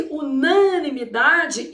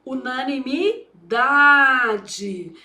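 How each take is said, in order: First: "unanimidade" com força extra no NA; pré-tônica forte. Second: "Unanimidade" bem devagar, com pausa antes de um DA alongado; palavra ditada. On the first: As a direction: destaque o NÃ de "unanimidade", como em unânime. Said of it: "é chamado de sílaba pré-tônica". ("unanimidade" de uma vez, com a pré-tônica NA marcada) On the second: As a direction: dite "Unanimidade" em pedaços, esticando o DA. Dita a palavra enquanto escreve. ("Unanimidade" lento, tônica longa no DA) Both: Shown as a demonstration.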